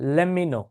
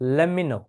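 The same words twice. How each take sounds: No difference in how they are said.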